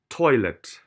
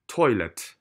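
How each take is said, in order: First: The last syllable has a reduced, neutral vowel. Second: The last syllable has a reduced, neutral vowel.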